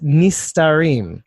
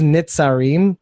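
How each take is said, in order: First: The middle consonant is a plain 's' sound. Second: The middle consonant is a 'ts' sound. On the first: This is the word meaning the hidden ones. The speaker calls it right. "It's the thirty-six Nistarim" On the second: Someone else said it this way. The speaker calls it wrong. "what he says is Nitzarim, but he pronounced it wrong"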